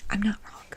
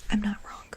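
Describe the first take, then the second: No difference in how they are said.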